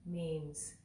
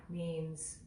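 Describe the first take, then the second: No difference in how they are said.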